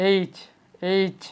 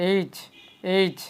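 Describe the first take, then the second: The two takes are said the same way.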